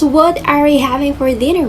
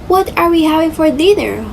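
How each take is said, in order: First: The stress is even, with no word emphasized. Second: The word mother carries strong stress. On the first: It asks the mother what the dinner will be. "even stress across the sentence and no special emphasis on any word" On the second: It suggests the mother herself is the dinner. "places a strong stress on the word mother"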